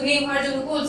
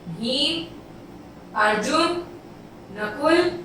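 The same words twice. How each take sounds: First: The names run together without any pauses. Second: Short pauses separate each of the names. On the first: The names are hard to tell apart. The speaker calls it wrong. "अब मैं direct बोल दूं" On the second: Each name is heard as separate. The speaker calls it right. "एक थोड़ा सा विराम देना है"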